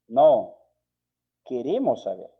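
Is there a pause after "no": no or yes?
yes. There is a pause after no.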